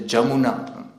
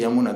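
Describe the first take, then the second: First: The word begins with a J sound. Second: The word begins with a Y sound. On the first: This is how Bengali speakers say it. "they will say Jamuna" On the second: This is not how Bengali speakers say it. "they will not say Yamuna"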